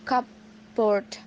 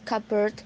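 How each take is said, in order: First: It is said as two parts, cup board. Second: It is said as one blended word, cubbard. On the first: The speaker calls it wrong. "never cupboard" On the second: The speaker calls it right. "is always uh, pronounced cupboard"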